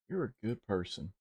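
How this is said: It is said in a dramatic cowboy voice. The speaker calls it right. "in a dramatic cowboy way"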